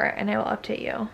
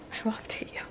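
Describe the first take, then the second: First: Said in the usual way. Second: "I will update you" breathed in a bare whisper. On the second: Shown as a demonstration. Vlogger signing off to viewers, whispering "I will update you".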